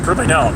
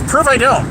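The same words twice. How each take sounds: First: Said in the usual way. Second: "prove I don't" lifted much higher in a challenge; taunting. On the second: Acted. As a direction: dare them, with "prove" pitched up. Taunting a chat commenter.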